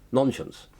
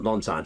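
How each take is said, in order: First: It is said like the word nonsense. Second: It is said as non plus science. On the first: "That's how I pronounce it" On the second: "not non-science"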